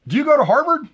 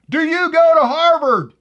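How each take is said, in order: First: High, eager question; plain first asking; asking politely. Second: Slow, loud, higher put-on Boston drawl; hammed-up Boston accent, dragging it out; Boston accent punchline, loud and slow; mock Boston accent. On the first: Acted. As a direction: lean in and ask brightly. Joke, man asks woman in bar. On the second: Punchline, mocking her pronunciation.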